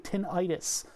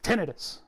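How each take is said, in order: First: The ending sounds like 'eye-tis'. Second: The ending sounds like 'ih-tus'. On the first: The speaker calls it wrong. "Everybody wants to say tinnitus, but an itis is a swelling" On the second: The speaker calls it right. "It's tinnitus. You ain't got no itis"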